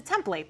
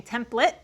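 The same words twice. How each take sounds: First: "template" with a full "plate" at the end; long a in the last syllable of "template"; template as spelled. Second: "template" with a reduced last syllable, TEM-plit; short unstressed ending on "template"; standard template. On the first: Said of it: "No, it's a template". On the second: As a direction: say "template" to rhyme its end with "lit". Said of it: "I'm supposed to be saying". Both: Shown as a demonstration.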